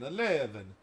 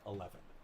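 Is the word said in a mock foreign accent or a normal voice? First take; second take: mock accent; normal voice. First: It is said in a mock Transylvanian-Italian accent. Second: It is said in the speaker's normal accent. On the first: "I was saying that in a bad Transylvanian slash Italian accent" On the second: "let's try that again for real"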